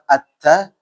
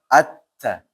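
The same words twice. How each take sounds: First: The doubled consonant is joined smoothly without bounce. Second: The doubled consonant is split apart with a bounce. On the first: The speaker calls it right. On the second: The speaker calls it wrong.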